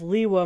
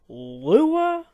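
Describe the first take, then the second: First: The name begins with an 'ee' sound. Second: The name begins with an 'oo' sound. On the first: The name fits the pattern of the related place names. The speaker calls it right. "Pronouncing it as Liwa maintains the synergy of the naming system" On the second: This is the usual pronunciation of the name. The speaker calls it wrong. "Lua doesn't match up"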